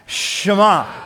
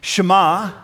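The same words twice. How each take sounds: First: It is said with lively, energetic gusto. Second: It is said plainly, without extra energy.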